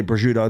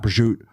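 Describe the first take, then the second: First: Prosciutto said the Italian way, pro-SHOO-to; Italian pronunciation. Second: Prosciutto with the last vowel dropped; clipped American version. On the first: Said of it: "I will say prosciutto". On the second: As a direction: drop the final vowel of prosciutto. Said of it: "not prosciutto". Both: Shown as a demonstration.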